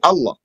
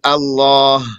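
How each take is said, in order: First: Both the long vowel and final h are dropped. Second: The word has both the long vowel and final h. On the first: "without a ha or a alif" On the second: "they'd say Allah"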